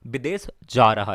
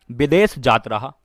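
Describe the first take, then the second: First: Said in the usual way. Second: "विदेश जात रहा" with Bihari "जात" for "जा". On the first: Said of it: "right, विदेश जा रहा". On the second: Shown as a demonstration. Teacher showing students the Bihari "जात रहा". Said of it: "जात रहा बिहारी में बोलते हैं ना".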